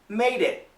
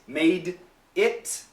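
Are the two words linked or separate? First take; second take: linked; separate. First: The D links straight into the next word. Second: The two words are said separately. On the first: The speaker calls it right. "Natural connection" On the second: The speaker calls it wrong.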